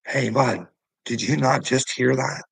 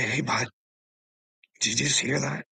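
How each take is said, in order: First: A bit louder, confronting the cop head-on; pointed challenge. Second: Polite ask. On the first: Man presses the cop about the threat, confronting and a little louder. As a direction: demand he admit he heard it. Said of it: "I had to say it really fucking nice". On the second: Man imitating how he should have asked the cop, polite and calm. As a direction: ask nicely, keep it friendly. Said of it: "And you say". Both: Retold or imitated.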